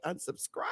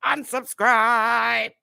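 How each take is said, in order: First: Breathy whisper, tossed off; whispered dismissal. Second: Slow, louder, stretched "Unsubscribe"; drawn-out unsubscribe. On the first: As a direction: whisper it like a parting jab. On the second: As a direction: draw out "Unsubscribe" syllable by syllable. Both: Real, not acted. Dismissing viewers.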